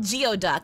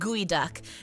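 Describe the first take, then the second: First: The word begins with a 'gee-oh' sound. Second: The word begins with a 'gooey' sound. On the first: This is how the spelling suggests it should sound. "It should be called geoduck" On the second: This is how it is actually pronounced. "but it's pronounced gooey duck"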